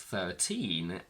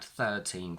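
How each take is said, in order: First: The stress is on the second syllable. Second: The stress is on the first syllable. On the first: "when they're on their own, the stress is on teen" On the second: "when they're followed by a noun, the stress shifts to the front"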